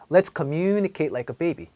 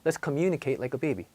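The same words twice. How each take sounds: First: It is said slowly with exaggerated lengthening. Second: It is said quickly at normal speed. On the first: "한번 오버해서 발음을 해볼게요" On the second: "빨리 말을 해도"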